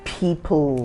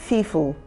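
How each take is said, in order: First: It is said with a standard pronunciation. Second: It is said with a northern Nigerian pronunciation. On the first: The speaker calls it right. "rather than saying "people."" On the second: The speaker calls it wrong. "some of them say "fifu""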